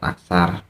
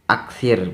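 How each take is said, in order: First: The second vowel is an 'a' sound. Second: The second vowel is an 'i' sound. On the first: The speaker calls it wrong. "bukan aksar" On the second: The speaker calls it right. "fi'il amarnya adalah aksir"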